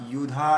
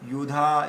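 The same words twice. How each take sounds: The two takes are said the same way.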